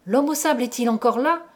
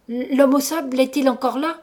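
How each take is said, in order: First: Quick question, rising at the end; fluent, quick waking question; first lucid words. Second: Higher, louder stammered question; narrated frightened stammer. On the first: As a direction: ask it briskly without stumbling. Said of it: "Ce fut mon premier mot raisonnable". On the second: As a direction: stumble into the question, voice raised. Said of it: "dis-je en bégayant". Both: A narrator's reading.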